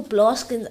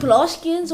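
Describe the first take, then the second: First: Blaskins said short, with no "ee" sound; Blaskins, two syllables. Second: Blaskians said with the full "-ians" ending; Blaskians, three syllables. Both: Shown as a demonstration. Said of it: "It's Blaskians or Blaskins".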